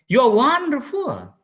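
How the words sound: It is said in a warm, admiring tone. The speaker truly admires the person. "we admire, we adore that he is very wonderful"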